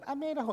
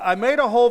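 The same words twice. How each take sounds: First: It is said in a high, squeaky voice. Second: It is said in a normal speaking voice. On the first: "No, I'll do it" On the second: "No, I won't do it"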